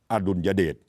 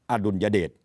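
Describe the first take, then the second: No difference in how they are said.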